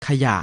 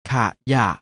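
First: Said in the usual way. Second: ขะยะ split into ขะ and ยะ; short ขะ, clear gap, then ยะ; syllable by syllable. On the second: Shown as a demonstration. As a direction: sound out ขะยะ in two beats. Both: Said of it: "อ่านว่า".

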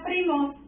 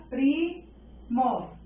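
First: Said in the usual way. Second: Primos as a held PRI, pause, mos; split into syllables. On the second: Shown as a demonstration. Teacher dividing primos into syllables, each one said separately. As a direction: break primos slowly in two. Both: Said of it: "la dividimos en sílabas".

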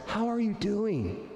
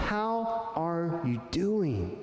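First: Really wanting to know; a caring check-in with the stress on "you"; higher, slower sincere question. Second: Drawn out and caring; a slow sincere check-in; slow, sincere question. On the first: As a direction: ask it slowly, lifting the "you". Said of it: "look someone in the eye and say". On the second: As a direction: ask it slowly, meaning it. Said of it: "look them in the eye and say". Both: Shown as a demonstration.

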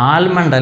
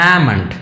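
First: ആൽമണ്ട് said with the l sounded; the common mistake, l clearly said in ആൽമണ്ട്; wrong pronunciation. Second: ആമണ്ട് with a silent l, aa-mund; correct pronunciation. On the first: Teacher shows students the wrong way: ആൽമണ്ട് with a sounded l. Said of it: "ആൽമണ്ട് അല്ല". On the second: Teacher models the right way for students: ആമണ്ട് without the l. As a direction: drop the l and say ആമണ്ട്. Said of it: "ഈ എല്ല് silent ആണ്". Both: Shown as a demonstration.

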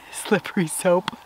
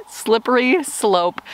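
First: Whispered through a laugh, softer, slow: slippery soap; laughing slip. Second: Slow, careful correction: slippery slope; correcting herself. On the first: Real, not acted. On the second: Shown as a demonstration. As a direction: fix the slip, saying slope clearly.

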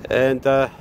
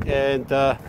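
Both takes have the same delivery.

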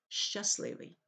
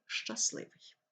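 First: "щасливий" with a softened щ; wrong soft щ. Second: "щасливий" with a hard щ; correct hard щ. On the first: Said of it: "Так вимовляти неправильно". ("щасливий" з м'яким щ) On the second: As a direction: say "щасливий" properly, firm щ. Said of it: "правильно вимовляти щасливий". ("щасливий" з твердим щ) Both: Shown as a demonstration.

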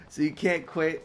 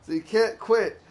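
First: Said in the usual way. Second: Higher and louder, the line done in the schoolgirl's falsetto; mock girlish falsetto. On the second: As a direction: parrot her words back in a high girly voice. Re-read of the line, high and loud.

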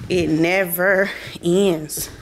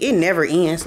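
First: Drawn out, leaning on "never"; slow emphatic "never"; slow stress on never. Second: Said in the usual way. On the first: Shown as a demonstration. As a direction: stretch "it never ends" slowly, weight on "never".

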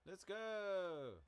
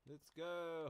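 First: High, loud yell to the horse; loud shout. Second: Loud, high rallying call; excited shout. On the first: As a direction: shout him into a gallop. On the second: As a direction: cheer the horse forward. Urging horse on, excited. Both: Real, not acted.

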